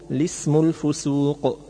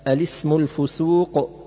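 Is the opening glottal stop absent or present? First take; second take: Absent; Present. First: It begins without a glottal stop. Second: It begins with a glottal stop. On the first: "وحذفها" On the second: "بإثبات همزة أل التعريف"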